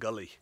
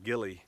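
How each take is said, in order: First: It is said in a Scottish-style accent. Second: It is said in the speaker's own accent. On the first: "I think the Scots pronounce it gully" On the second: "we pronounce it gilly"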